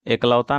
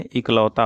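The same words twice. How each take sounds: First: एकलौता opening on long e; wrong pronunciation. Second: Said in the usual way. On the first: Shown as a demonstration. Teacher shows students the error, एकलौता with e sound. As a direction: start एकलौता with "ek", not "ik". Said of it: "नहीं होता है". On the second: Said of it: "होता है".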